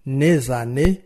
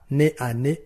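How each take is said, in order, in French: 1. La consonne finale se lie à la voyelle suivante. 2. Les mots restent séparés, sans consonne de liaison. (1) "on ne peut pas dire par exemple" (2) "Non, on dira"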